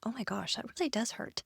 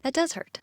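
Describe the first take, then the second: First: Much softer, wincing under the breath; hushed from real pain of the squeeze; quiet pained. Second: Said in the usual way. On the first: Real, not acted. Testing the hand hold, quietly wincing in pain. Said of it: "it's very sensitive". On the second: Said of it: "I'm not even putting that much pressure on it".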